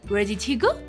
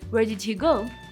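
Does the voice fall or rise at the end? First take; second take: rise; fall. First: The voice rises at the end. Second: The voice falls at the end. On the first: The speaker calls it wrong. "that has a rising intonation at the end of it" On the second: The speaker calls it right. "you have to put a falling intonation to it"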